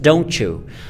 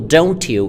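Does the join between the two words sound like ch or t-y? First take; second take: ch; t-y. First: The t and y merge into a ch sound. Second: A separate t is followed by a y sound. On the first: "the preceding t, it becomes ch" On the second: "if a word ends with a t sound or t sound, t, and the following word starts with a y sound"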